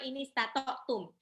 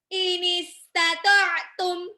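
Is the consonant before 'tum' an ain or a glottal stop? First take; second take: glottal stop; ain. First: A plain glottal stop comes before tum. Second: A tight mid-throat ain comes before tum. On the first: The speaker calls it wrong. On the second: The speaker calls it right.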